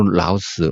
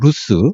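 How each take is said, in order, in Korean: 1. 이 모음은 'house'의 'ow'처럼 소리 나요. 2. 이 모음은 'moon'의 'oo'처럼 소리 나요. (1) "이걸 또 라우스라고 발음도 하는데" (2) "보통 루스라고 그렇게 얘기를 해요"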